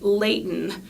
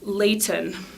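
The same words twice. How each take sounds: First: The middle t sound is dropped. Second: The middle t sound is clearly pronounced. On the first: "that's called" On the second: "instead of"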